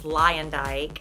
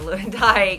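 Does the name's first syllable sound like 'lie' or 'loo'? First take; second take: lie; loo. First: The first syllable sounds like 'lie'. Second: The first syllable sounds like 'loo'. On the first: The speaker calls it right. "which I just found out is Lyondike" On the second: The speaker calls it wrong. "instead of Lewandike"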